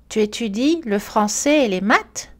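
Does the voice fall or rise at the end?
rise. The pitch rises at the end. It is a question. "L'accentuation montante est aussi utilisée pour marquer une question"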